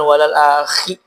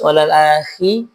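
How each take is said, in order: First: The kh sound is harsh, like a snore. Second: The kh sound is soft and smooth. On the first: The speaker calls it wrong. "tidak boleh ngorok, tidak boleh mendengur. Jadi bukan" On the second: The speaker calls it right. "dibaca dengan cara yang lebih halus"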